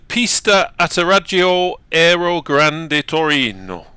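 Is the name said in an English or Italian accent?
Italian. It is said with a put-on Italian accent. "you got to say it with an accent"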